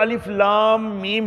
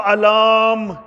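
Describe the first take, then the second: First: Each letter name is spoken separately. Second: The letters are joined into one word, alaam. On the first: The speaker calls it right. "अलिफ को अलग पढ़ना है, लाम को अलग पढ़ना है, मीम को अलग पढ़ना है" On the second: The speaker calls it wrong. "हम इसको अलाम यूं नहीं पढ़ सकते"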